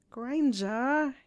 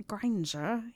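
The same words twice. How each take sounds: First: Louder, higher, drawn-out whine; whining. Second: Gently coaxing her name; persuasive. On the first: Boy pleads with his girlfriend, whining. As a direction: whine her name in protest. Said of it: "he whined". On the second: Boy coaxing his girlfriend round, persuasive. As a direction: win her over, understated persuasion. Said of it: "said in his most persuasive tone". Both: A narrator's reading.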